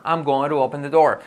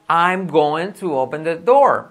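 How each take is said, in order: First: GOING TO run together as "go-ru"; linked going to. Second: GOING TO fully separated, slow and louder; full form. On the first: Teacher modelling cool speech, linked GOING TO. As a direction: link GOING TO with a tapped T. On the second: Teacher giving students the full form, slow GOING TO. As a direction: spell out GOING TO slowly and clearly. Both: Shown as a demonstration. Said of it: "suena más cool decir".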